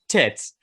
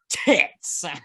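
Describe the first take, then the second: First: The word is said calmly and plainly. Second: The word is said forcefully and aggressively. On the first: The speaker calls it right. "Just say tits" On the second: The speaker calls it wrong. "You say it so aggressively"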